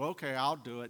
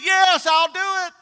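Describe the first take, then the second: First: It is said reluctantly, without enthusiasm. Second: It is said eagerly, with enthusiasm.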